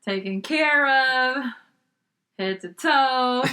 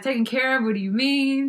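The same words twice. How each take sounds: First: "taken care of" stretched slowly with meaning; slow, loaded emphasis on "taken care of"; pointed hint. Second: "Taken care of" echoed as a higher question; mildly baffled echo of "Taken care of"; puzzled question. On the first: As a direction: draw out "taken care of" and "head to toe". Organizer hints with heavy meaning. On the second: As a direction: query "Taken care of" as if not understanding it. Puzzled reply to organizer's hint. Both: Retold or imitated.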